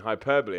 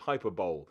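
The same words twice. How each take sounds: First: It is said as hy-per-bo-lee, four syllables. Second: It is said like hyper-bowl, three syllables. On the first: The speaker calls it right. "Do you mean hyperbole?" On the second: The speaker calls it wrong. "I said the same thing"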